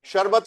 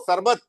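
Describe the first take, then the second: First: The word begins with a 'sh' sound. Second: The word begins with an 's' sound. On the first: The speaker calls it right. "श है" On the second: The speaker calls it wrong. "शय में दिक्कत है हमारे यहाँ"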